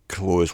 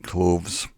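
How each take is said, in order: First: The th sound is dropped, like 'close the door'. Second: The th sound is pronounced before the final s. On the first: "or just the word close, like close the door" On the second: "you could say something like clothes"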